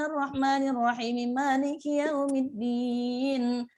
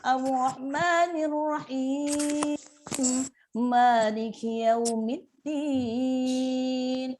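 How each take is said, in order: First: It runs the phrases together quickly without pausing. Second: It pauses between the phrases. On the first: The reader rushes past the pause marks. The speaker calls it wrong. "kalau misalkan mau cepet" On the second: The reader stops at the pause marks. The speaker calls it right. "Kalau Bunda wakaf"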